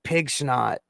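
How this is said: The s sound starts the second word. This is a chosen, playful reading. "but I choose to pronounce it pig snot"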